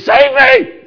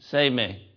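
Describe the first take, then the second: First: It is said urgently, with desperate energy. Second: It is said calmly, without urgency. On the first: The speaker is in real danger. The speaker calls it right. "You say" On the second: The speaker is not really in danger. The speaker calls it wrong. "you don't say"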